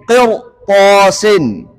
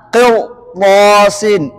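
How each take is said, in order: Both takes have the same delivery.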